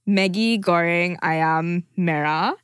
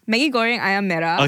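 First: It sounds deliberate and stilted, not like a local. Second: It sounds casual and natural, more like a local. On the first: The speaker calls it wrong. "You sound like it's too obvious" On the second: The speaker calls it right. "now you sound a bit more natural"

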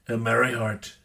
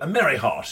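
First: It is spoken in an imitated American accent. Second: It is spoken in a British accent. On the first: "I could say it as Trump" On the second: "I like to say it with a British accent"

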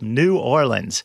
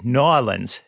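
First: The city name is said the general way. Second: The city name is said the local way.

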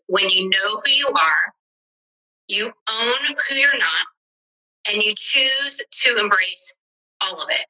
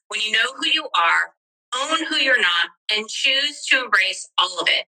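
First: It is said at a normal pace. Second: It is said a little quicker.

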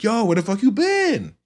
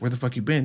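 First: It is said in a friendly tone. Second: It is said in an angry tone.

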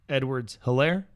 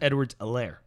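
First: The H at the start of Helaire is pronounced. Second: The H at the start of Helaire is silent. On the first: The speaker calls it wrong. "looks like it's spelled Edwards-Helaire" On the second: The speaker calls it right. "But it's Edwards-Helaire. There's no H"

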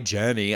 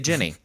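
First: The first vowel is a clear 'eh' sound. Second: The first vowel is closer to an 'ih' sound. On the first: "I don't say J-E-N-N-Y Jenny" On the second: "I say Jenny"

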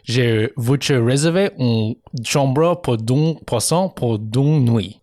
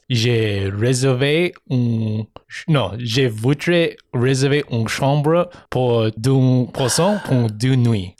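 First: The sentence is said smoothly in one flow. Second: The sentence is said slowly and haltingly.

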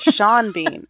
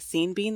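First: Sean is pronounced like the name shawn. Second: Sean is pronounced like the word seen. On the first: The speaker calls it right. "idiot, it's Sean Bean" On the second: The speaker calls it wrong. "I've been saying Scene Bean this whole time"

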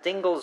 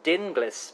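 First: The name rhymes with shingles. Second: The name does not rhyme with shingles. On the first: "Is it Dingles rhymes with shingles?" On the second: "as you've said, rightly so, I believe"

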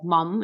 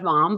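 First: The word is said with an American accent. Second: The word is said with a British accent. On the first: The speaker calls it wrong. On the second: The speaker calls it right.

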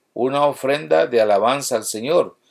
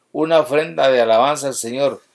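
The two takes are said the same way.

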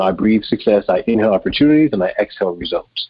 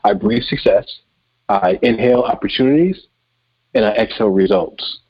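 First: It is spoken at a normal, quicker pace. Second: It is spoken slowly and deliberately.

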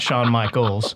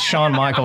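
First: The name ends with an s sound. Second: The name ends without an s sound. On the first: This is someone else's name. The speaker calls it wrong. "he has an S on the end of his name" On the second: This is the speaker's own name. The speaker calls it right. "It's Shawn Michaels"

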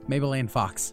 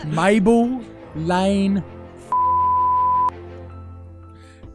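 First: It is said without the put-on accent. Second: It is said in a Cockney accent.

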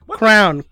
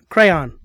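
First: The word is squeezed into one syllable. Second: The word is said as two syllables. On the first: The speaker calls it wrong. "saying crown instead of crayon" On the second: The speaker calls it right.

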